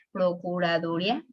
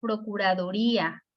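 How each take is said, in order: First: "procuraduría" mispronounced as pro-cu-ra-DU-ria, with a questioning rise; wrong stress. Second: "Procuraduría" said pro-cu-ra-du-RÍ-a; stress on the í. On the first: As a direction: shift the stress of "procuraduría" back to DU, ending in a quick -ria. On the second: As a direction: stress the í in "Procuraduría", separate from the final a. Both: Shown as a demonstration. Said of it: "tiene que ir acentuado".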